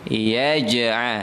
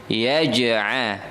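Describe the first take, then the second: Both takes have the same delivery.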